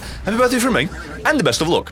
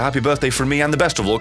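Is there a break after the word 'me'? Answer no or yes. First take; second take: yes; no. First: There is a break right after 'me'. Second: The words run on with no break after 'me'. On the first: One person wishes a happy birthday and also good luck. The speaker calls it right. "That's how I'm supposed to read that" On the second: 'The best of luck' is one of the senders of the birthday wish. The speaker calls it wrong. "as if the best of luck is wishing me birthday"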